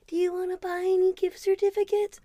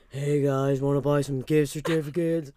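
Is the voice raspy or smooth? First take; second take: smooth; raspy. First: It is said in a smooth, clear voice. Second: It is said in a rough, raspy voice.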